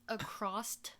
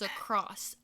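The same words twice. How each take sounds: First: The word ends with an added t sound. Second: The word ends with a plain s sound. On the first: The speaker calls it wrong. "he says across" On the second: The speaker calls it right. "it's across, ... there's no T in that word"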